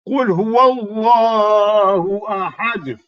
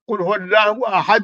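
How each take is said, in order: First: The resting consonants are bounced with extra force. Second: The resting consonants are plain, without a bounce. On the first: The speaker calls it right. "We have to put stress on that" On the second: The speaker calls it wrong. "is not correct"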